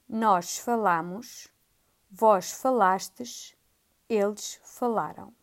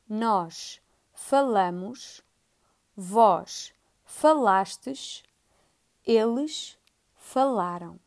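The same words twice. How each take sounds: First: It is said at a faster pace. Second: It is said at a slower pace.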